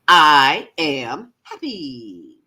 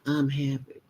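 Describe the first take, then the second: First: It is said with excited, joyful conviction. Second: It is said flatly, without conviction.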